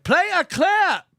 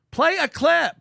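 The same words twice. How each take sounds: First: Slow, raised barking command; mock bossy order. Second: Raised barking command; mock bossy order. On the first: Mocking the host who orders a clip, mock bark. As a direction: bark it like a boss demanding a clip. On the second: Mocking the host's clip demand, mock bark. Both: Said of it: "He does this thing where it's like".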